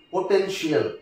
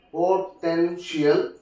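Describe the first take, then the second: First: Said in the usual way. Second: "potential" said slowly, syllable by syllable; broken into syllables. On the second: Shown as a demonstration. Teacher showing the stressed syllable, "potential" slowly broken up. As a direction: stretch "potential" out in separate syllables. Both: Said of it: "the second syllable it takes".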